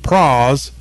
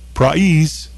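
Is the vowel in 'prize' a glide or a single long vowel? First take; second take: single vowel; glide. First: The vowel is a single long 'ah' sound. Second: The vowel glides from 'ah' toward 'ee'. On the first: This is how older Southern speakers say it. "older Georgians pronounce the word prize as P-R-A-H-Z" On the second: This is how younger Southern speakers say it. "the younger speakers ... they say prize"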